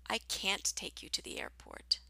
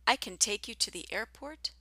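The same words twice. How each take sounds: First: "can't" with long cat vowel, falling. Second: "can" quick like kin, rising tune; short can. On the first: Teacher replaying the tricky sentence, long "can't". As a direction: stretch "can't" and drop the tune. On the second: Teacher replaying the tricky sentence, "can" short. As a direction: keep "can" short and light. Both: Shown as a demonstration. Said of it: "try those two tricky sentences again".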